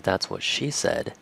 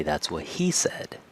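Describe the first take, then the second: First: "she" as the strong word of the line; stress on SHE. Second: "he" made the prominent word of the line; stress on HE. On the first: Teacher quoting the usual joke before changing it, stress on "she". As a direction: lean on "she" in "That's what she said". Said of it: "And instead of". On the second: Teacher showing how some people change the joke, stress on "he". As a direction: lean on "he" in place of "she". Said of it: "they say". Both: Shown as a demonstration.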